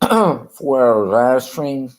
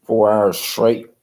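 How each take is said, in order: First: "four" drawn out slowly and louder; stress on four. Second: Said in the usual way. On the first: Shown as a demonstration. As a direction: stretch "four hours" slowly, leaning on "four". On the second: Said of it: "some people would stream for".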